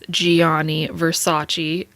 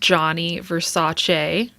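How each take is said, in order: First: The name has an English-style pronunciation. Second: The name has an Italian pronunciation. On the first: The speaker calls it wrong. "you're not supposed to pronounce his name as" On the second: The speaker calls it right. "It's actually pronounced Johnny Versace in Italian"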